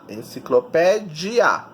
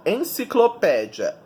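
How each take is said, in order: First: "enciclopédia" slowly, ending in a separate di-a; slow "enciclopédia" showing the diphthong ia at the end; ending split as i-a. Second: Said in the usual way. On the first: Shown as a demonstration. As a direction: pull apart the final "ia" of "enciclopédia". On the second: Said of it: "sílaba tônica é o pé".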